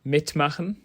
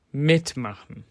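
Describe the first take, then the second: First: Said in the usual way. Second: Mitmachen with emphasis on mit; first-syllable stress. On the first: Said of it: "Have a look at these infinitives". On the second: Shown as a demonstration. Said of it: "If the stress falls on the first syllable".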